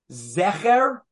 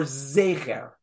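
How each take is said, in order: First: "Zecher" with a short, open eh in the first syllable; eh-sound pronunciation. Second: "Zecher" with a long ay in the first syllable, drawn out; A-sound pronunciation. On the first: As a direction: say "Zecher" as ZEH-kher. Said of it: "and it's an eh sound". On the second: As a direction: say "Zecher" as ZAY-kher. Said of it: "it's an A sound". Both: Shown as a demonstration.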